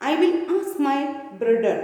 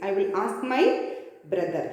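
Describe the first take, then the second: First: Lightly imitated German accent, "brother" as "brudder". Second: Said in the usual way. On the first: Shoemaker mentioning his elder brother, mild German accent. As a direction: say it with a hint of German. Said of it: "this is the accent of German". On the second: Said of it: "Brother means".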